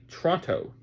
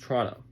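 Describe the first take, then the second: First: Every letter of the name is fully pronounced. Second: The name is said in a clipped, reduced form. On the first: This is how an outsider would say it. The speaker calls it wrong. "it's spelled like Toronto, but no one calls it that" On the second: This is how locals actually say it. The speaker calls it right. "It's Toronto"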